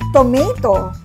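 The word is said with an American accent. "in American English"

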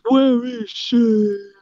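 It is said in a gravelly Batman voice.

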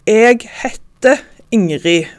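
It is said in the Stavanger dialect. "på Stavanger dialekt"

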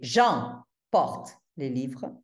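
Two words in the sentence carry stress. "il y a deux mots accentués"

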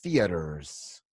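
An American accent, soft t and strong r. "En Estados Unidos van a decir theaters, theaters. ... Es la T suave y la R fuerte"

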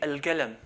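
The q sound is replaced by a g sound. This is how the Gulf area says it. "they change it to a g"

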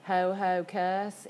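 It is said in a Southern US accent. The speaker calls it wrong. "it looks like Hohokus, if you're from the South"

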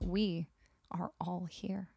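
It is said with grave, dramatic seriousness.

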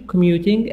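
It is said with a British accent.

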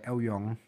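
The surname is pronounced the Hakka way. "Hakka menyebutnya sebagai"

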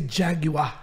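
It is said with a British pronunciation. This is how people outside the US say it. "And we don't say jaguar"

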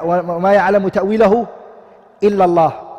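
The reading stops after the word Allah.

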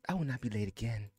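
It is said in a put-on lady voice.

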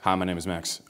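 The greeting sounds overly serious.

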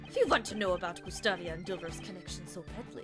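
It is spoken with a Russian-sounding accent. "That's Russian. That's nope"

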